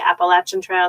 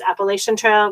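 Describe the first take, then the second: First: It uses a local regional pronunciation. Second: It uses the common nationwide pronunciation. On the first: This is how people in one region say it. "We say Appalachian Trail. It's a regional pronunciation" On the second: This is how most of the country says it. "everybody in the, else in the country says"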